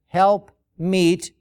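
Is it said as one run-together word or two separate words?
two words. It is said as two separate words. The speaker calls it right. "but it is two words"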